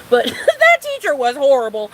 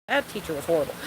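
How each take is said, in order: First: Louder with a laugh. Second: Said in the usual way. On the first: Real, not acted. Ranting to viewers about her teacher, louder and laughing. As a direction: repeat it louder, laughing through it.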